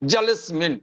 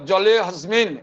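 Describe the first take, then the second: First: The h sound in the middle is dropped. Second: The h sound in the middle is pronounced. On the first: The speaker calls it right. "ওই উচ্চারণটাই out হয়ে গেল" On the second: The speaker calls it wrong. "জলে হাসমিন এই কথাটা হবে না"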